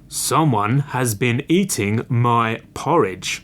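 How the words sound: It is said in a great big, deep voice.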